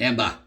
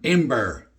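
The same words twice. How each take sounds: First: It is said in a Boston accent. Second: It is said in the speaker's plain accent.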